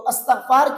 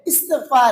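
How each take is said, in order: First: The word begins with an 'a' vowel. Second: The word begins with an 'i' vowel. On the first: The speaker calls it wrong. "अस्तगफार कहना ये गलत है" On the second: The speaker calls it right. "अलीफ के ऊपर हमजा नहीं है बल्कि जेर है"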